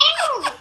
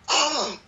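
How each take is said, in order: First: The scream is very high-pitched. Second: The scream is at a lower pitch.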